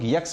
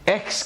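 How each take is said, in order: First: It begins with a 'y' glide sound. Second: It begins with a sharp vowel sound. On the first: The speaker calls it wrong. "हम लोग यक्स बोलने की कोशिश करते हैं। गलत है ये।" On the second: The speaker calls it right. "शार्प आवाज आएगी शुरू में, एक्स करके बोलेंगे"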